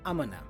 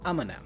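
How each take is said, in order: First: Gonna is heavily reduced and almost swallowed. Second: Gonna is heavily reduced and almost swallowed.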